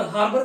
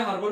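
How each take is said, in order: First: हार्बर with rounded "hor" first syllable; alternative pronunciation. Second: हार्बर with open, unrounded "har" first syllable; alternative pronunciation. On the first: Teacher offering one accepted pronunciation, rounded first vowel. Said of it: "हार्बर बोल सकते हैं". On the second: Teacher offering the other accepted pronunciation, unrounded first vowel. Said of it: "एक ही pronunciation होती है". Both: Shown as a demonstration.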